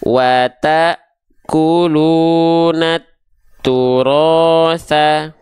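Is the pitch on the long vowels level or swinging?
level. The long vowels are held on a level pitch. "nih kita nggak ayunkan pakai nada"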